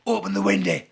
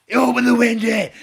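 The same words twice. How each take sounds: First: Loud, raised menacing command; shouted order. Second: Much louder, high bellow; furious shouted order. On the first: Man at the car window ordering the driver, shouting. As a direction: imitate a scary man shouting through glass. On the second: Man repeating his order to the stalled driver, bellowing. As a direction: bellow it at someone who didn't obey. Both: Retold or imitated.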